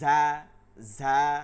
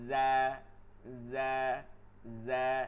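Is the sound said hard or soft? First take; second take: hard; soft. First: The sound is said hard and loud. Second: The sound is said softer, not forced. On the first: The speaker calls it wrong. "শক্ত আওয়াজে ঝা ঝা, মানে বেশি আওয়াজে যেটা ঝা, এটা ভুল।" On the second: The speaker calls it right. "কিন্তু এত শক্ত করা যাবে না"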